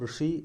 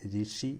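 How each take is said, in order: First: The first syllable is said the Malayalam way. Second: The first syllable is said as 'ri'. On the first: This is how Malayalam speakers say it. "നമ്മൾ ഋഷി എന്ന് പറയുമ്പോൾ" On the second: This is how Hindi speakers say it. "ഹിന്ദിക്കാർ രിഷി എന്നാണ് പറയുക"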